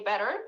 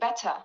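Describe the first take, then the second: First: The middle T sounds like a soft D. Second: The middle T is a full, crisp T. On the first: "like better in American accent" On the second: "but in British they say better"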